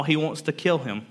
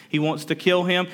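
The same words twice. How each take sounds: First: Said in the usual way. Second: "He wants to kill him" said higher, leaning on "kill"; emphatic repeat. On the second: Real, not acted. Preacher repeating David's danger to the congregation, with heavier stress. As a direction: hammer home "kill" the second time.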